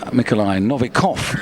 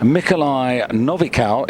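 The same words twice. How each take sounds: First: The name is pronounced the Russian way. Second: The name is pronounced the Belarusian way. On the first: "if you're in Russia" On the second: "if you're in Belarus"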